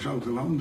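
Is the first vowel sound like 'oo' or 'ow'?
ow. The first vowel sounds like 'ow'. This is the standard Dutch form. "in the official Dutch language is uh, au"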